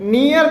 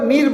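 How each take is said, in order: First: The vowel glides from ee into a second vowel. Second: The vowel is a single long ee sound. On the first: This is the familiar reading. "हमेशा नियर पढ़ते आ रहे हैं" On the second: This is the American pronunciation used in the song. "नियर को नीर बोल रही है"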